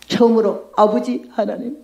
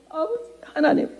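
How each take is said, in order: First: Said in the usual way. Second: Soft, pleading call to God; hushed prayer. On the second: Retold or imitated. 처음 기도하며 하나님을 부르는 환자, 간절하고 조용하게. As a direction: whisper it like a desperate first prayer. 하고 막 기도를 했어요.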